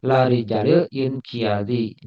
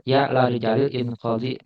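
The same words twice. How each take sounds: First: Inqiyadi said with an extra "iya" syllable in the middle; the wrong reading inqiyadi, in-ki-ya-di; mispronounced inqiyadi. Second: Inqadi said short as in-qa-di, without "iya"; the right reading inqadi, in-ko-di; corrected inqadi. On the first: Teacher reads the Arabic word wrongly as inqiyadi. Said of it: "membacanya inqiyadi". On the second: Teacher corrects his Arabic slip to inqadi. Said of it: "Seharusnya inqadi". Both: Shown as a demonstration.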